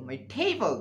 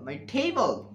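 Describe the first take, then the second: Both takes have the same delivery.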